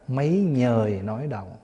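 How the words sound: The second word begins with an n sound. This is the Northern reading. "ngoài Bắc đọc là"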